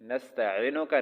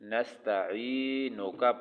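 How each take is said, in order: First: The middle ee vowel is said short. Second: The middle ee vowel is stretched long. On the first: The speaker calls it wrong. "नस्तईनुका नहीं पढ़ना" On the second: The speaker calls it right. "उसको लंबा करके लंबा करके पढ़ना पड़ता है"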